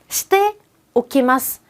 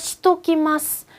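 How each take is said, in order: First: Every syllable of the phrase is pronounced fully. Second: The phrase is squeezed quickly into one contracted word.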